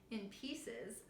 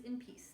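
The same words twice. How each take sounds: First: "pieces" said fully with the plural ending, softer and quieter; quietly fix it to "In pieces"; self-correction. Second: "piece" said as a single word with no final s, a quick slip; slip of the tongue. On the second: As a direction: rush out "in piece", dropping the plural. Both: Real, not acted.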